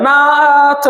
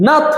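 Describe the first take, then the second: First: "নাথ" with a long drawn-out vowel, না-আ-আ-থ; exaggeratedly elongated "নাথ"; overstretched syllable. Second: Said in the usual way. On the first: Shown as a demonstration. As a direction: stretch the middle of "নাথ" as a wrong example. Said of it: "এরকম বলা যাবে না". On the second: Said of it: "এখানে কিন্তু এরকম বলা যাবে না".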